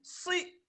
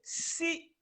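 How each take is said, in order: First: The vowel sounds dark, not a clear i. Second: The vowel sounds like a clear i. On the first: The speaker calls it right. "on a dit si" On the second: The speaker calls it wrong. "au lieu de si"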